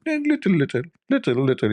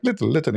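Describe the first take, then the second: First: Squeaky high, pinched little little; tiny little bit. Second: Said in the usual way. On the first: Retold or imitated. Guest telling the host he wants only a little spice, squeaky high. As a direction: squeeze the words small like a fingertip. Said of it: "I made my finger like". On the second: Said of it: "like the tip of my finger".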